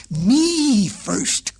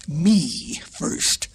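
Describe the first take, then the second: First: Higher, louder goat voice; goat crying out. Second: Lion's demanding voice; lion crying out. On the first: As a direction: bleat it back, insisting. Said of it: "cried the goat". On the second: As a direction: insist as the lion. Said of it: "cried the lion". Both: A narrator's reading.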